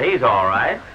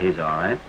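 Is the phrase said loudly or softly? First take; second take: loudly; softly. First: It is said loudly and more forcefully. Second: It is said softly and without conviction. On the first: The speaker calls it right. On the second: The speaker calls it wrong.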